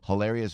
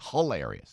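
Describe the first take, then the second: First: It is said in a neutral accent. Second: It is said in a New Jersey accent. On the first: The speaker calls it right. "Not hilarious, hilarious" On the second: The speaker calls it wrong. "See, that's Jersey"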